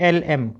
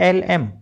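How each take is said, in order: No difference in how they are said.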